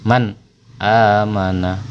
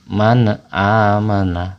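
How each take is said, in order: First: The n is clear with no added vowel. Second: A vowel is added after the n sound. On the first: The speaker calls it right. "Jadi dibaca jelas, tidak boleh ada pantulan, suara kita juga nggak boleh putus atau mendengung atau berharokat" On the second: The speaker calls it wrong. "Contoh bacaan yang salah, seakan-akan seperti huruf qalqalah"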